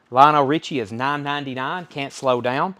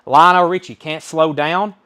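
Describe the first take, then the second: First: Said in the usual way. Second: Called out high and loud, the title slowed; booming auction call; loud announcement. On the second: Real, not acted. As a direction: announce the lot to the room. Auctioneer announcing next record.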